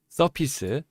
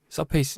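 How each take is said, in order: First: The second syllable sounds like 'pih'. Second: The second syllable sounds like 'pay'. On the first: The speaker calls it right. "서피스입니다" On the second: The speaker calls it wrong. "예 죄송합니다"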